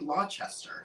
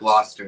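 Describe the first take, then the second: First: The name is said the way it is spelled. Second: The name is said the local way. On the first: The speaker is going by the spelling. "I probably would say Gloucester. Because of the way it's spelled" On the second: The speaker knows how locals say it. "I know now it's Gloucester because I have family in Massachusetts"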